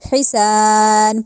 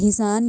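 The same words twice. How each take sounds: First: The first h comes harshly from the throat. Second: The first h is a plain, light h. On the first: The speaker calls it right. "हा हलक से निकालना है" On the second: The speaker calls it wrong. "हिसान या हिसन नहीं कहना"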